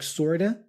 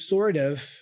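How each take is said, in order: First: The two words are reduced and run together. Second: The two words are said fully and separately.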